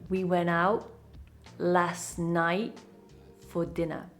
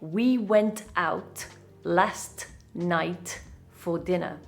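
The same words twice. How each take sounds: First: Several t sounds are dropped. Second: The t sounds are all pronounced clearly. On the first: The speaker calls it right. "We say, ... we drop quite a few T's" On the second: The speaker calls it wrong. "We don't say"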